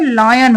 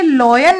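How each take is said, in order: First: The first vowel sounds like 'eye'. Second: The first vowel sounds like 'aw'. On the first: The speaker calls it right. "ये लायन होता है" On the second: The speaker calls it wrong. "ये लॉयन नहीं होता है"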